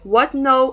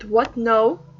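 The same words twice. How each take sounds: First: It is said with strong surprised emotion. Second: It is said flatly, without emotion.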